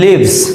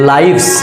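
First: The vowel is a short 'ih' sound. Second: The vowel is a long 'eye' sound. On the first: Someone dwells somewhere. "লিভ শব্দের অর্থ বাস করে" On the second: More than one life. "একই বানান। এটা হচ্ছে লাইভস।"

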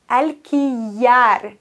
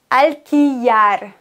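Both takes have the same delivery.

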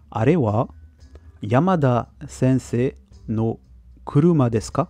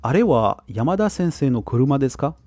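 First: The sentence is spoken at a slower pace. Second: The sentence is spoken at a normal pace.

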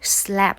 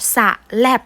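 First: A light s blends straight into the l. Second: An extra vowel splits the s from the l. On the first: The speaker calls it right. "เราจะออกเสียงเสเบาๆค่ะ" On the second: The speaker calls it wrong. "เราจะไม่อ่านว่าสะแลบนะคะ"

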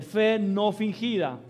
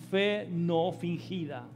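First: The phrase is said even more loudly. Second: The phrase is said loudly. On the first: "Un poquito más fuerte" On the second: "Diga fuerte conmigo"

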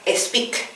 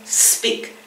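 First: An extra vowel sound comes before the s. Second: The word starts directly with the s sound. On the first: The speaker calls it wrong. "que no se salga speak" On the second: The speaker calls it right. "sino siempre speak"

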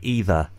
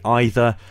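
First: It is said the way most American speakers say it. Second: It is said the way most British speakers say it. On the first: This is the usual US pronunciation. "80% of USA speakers say either" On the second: This is the usual UK pronunciation. "80% of British speakers say either"

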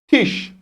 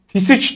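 First: The word ends in a single sh sound. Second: The ending is sounded as separate sounds. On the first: The speaker calls it right. "Ş sesi olur" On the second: The speaker calls it wrong. "Tisiç değil de"

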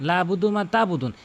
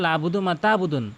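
The two takes are said the same way.

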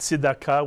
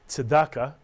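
First: It is said in Hebrew pronunciation. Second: It is said in the common everyday pronunciation.

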